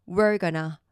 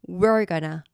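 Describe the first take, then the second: Both takes have the same delivery.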